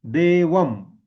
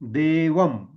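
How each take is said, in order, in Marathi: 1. शेवटी ओष्ठ्य m अनुनासिक आहे. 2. शेवटी ओष्ठ्य m अनुनासिक आहे.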